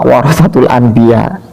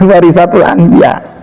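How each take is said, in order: First: The vowel after 'war' is an 'a' sound. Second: The vowel after 'war' is an 'i' sound. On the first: The speaker calls it right. "lafadznya ada adalah al ulama warasatul anbiya" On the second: The speaker calls it wrong. "bukan warisatul anbiya"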